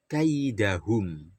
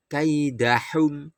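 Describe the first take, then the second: First: Kaidahum slowly, with the throaty ha from deep in the throat; correct pronunciation. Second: Kaidahum with a light plain h instead of a throaty ha; wrong pronunciation. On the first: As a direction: say kaidahum right, breathy ha from the throat. (kaidahum dibaca benar, ha dari tenggorokan) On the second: (kaidahum dibaca salah, dengan ha ringan) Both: Shown as a demonstration.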